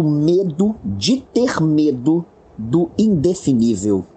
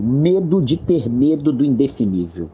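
First: "medo de ter medo" spaced out slowly, pitch rising on "ter"; slow emphatic quote. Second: Said in the usual way. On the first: Retold or imitated. Lecturer quoting a professor's definition of panic, slow and emphatic. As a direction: dwell on "medo de ter medo do", pause, then drop onto "indefinível". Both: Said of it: "Vou repetir".

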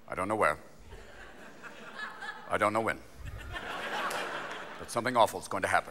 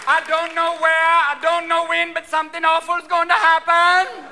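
First: Low, soft official briefing voice; understated, ominous press briefing; Rumsfeld. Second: High, loud fake Jamaican accent; psychic's prophecy in a loud mock-Jamaican accent; Miss Cleo. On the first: Acted. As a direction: deliver it low and quiet, with long pauses. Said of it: "Rumsfeld comes out and goes". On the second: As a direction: draw it out in a hammed-up Jamaican accent. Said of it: "are you working with Miss Cleo?".

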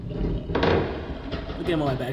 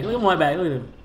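First: Said in the usual way. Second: Bright excited repeat. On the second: Real, not acted. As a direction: show it off, thrilled. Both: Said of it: "repeated, excited".

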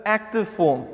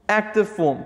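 Both takes have the same delivery.

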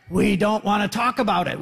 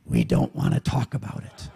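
First: Said in the usual way. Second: Low, dark, clipped refusal in a low voice; gruff evasive raftmates. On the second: Acted. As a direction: play the raft crowd shutting the question down, low. Raft people deflecting the question.

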